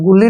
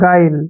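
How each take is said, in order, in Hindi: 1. पहला स्वर 'uh' जैसा है, जैसे gull में। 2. पहला स्वर 'eye' जैसा है, जैसे aisle में। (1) "गुल्ली नहीं पढ़ना है" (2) "गाइल पढ़ना है इसको"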